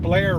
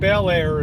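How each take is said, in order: First: The name is squeezed into one syllable. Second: The name is said with two full syllables. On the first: This is how locals say the name. "We call it Blair Road. ... you always drop a syllable" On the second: This is how outsiders say the name. "We don't call it Bel Air in Maryland"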